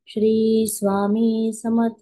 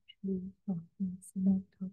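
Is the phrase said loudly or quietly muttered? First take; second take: loudly; quietly muttered. First: It is said loudly and clearly. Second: It is muttered in a low, soft voice. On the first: Everyone around can hear the chant. "अगदी स्पष्ट उच्चार करून ... असं मोठ्याने म्हणते आहे" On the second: Only the chanter can hear the chant. "पुटपुटल्यासारखं केलं ना, मी हळू केला माझा आवाज"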